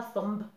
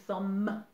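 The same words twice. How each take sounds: First: Thumb with the final b sounded; thumb said with a hard b at the end; wrong pronunciation. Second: Thumb with a silent b, ending on m; thumb said as "thum", b silent; correct pronunciation. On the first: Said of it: "on ne dit pas thumb". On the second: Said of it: "On dit thumb". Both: Shown as a demonstration.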